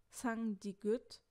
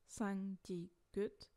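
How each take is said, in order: First: Sangdigut said slowly, rising at the end; drawn out, lifting on sangdigut; slow rising take. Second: Sangdigut said slowly and softer; softer slow repeat. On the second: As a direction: echo it back, softer and slow. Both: Shown as a demonstration. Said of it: "Cinq sangjaeum, double consonne".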